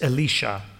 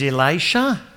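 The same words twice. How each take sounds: First: The name has a Hebrew pronunciation. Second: The name has an English pronunciation.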